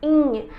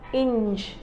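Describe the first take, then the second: First: It has an 'ny' sound as in mignon. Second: It ends with an 'nj' sound as in hinge. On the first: "in some places, this eduthu is also pronounced as ing, as the I G N in the French word mignon" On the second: "as the I N G E in hinge"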